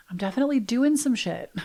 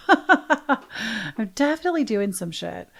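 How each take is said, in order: First: Quick giggly whisper, a bit higher; laughing whisper. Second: Slower, drawn out with a laugh in it; laughing aloud. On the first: Confessing to listeners with a hushed giggle. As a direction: whisper it through a laugh like a naughty secret. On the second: Owning it to listeners, laughing and slow. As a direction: savour the admission with a chuckle. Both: Real, not acted.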